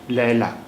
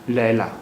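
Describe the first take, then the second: Both takes have the same delivery.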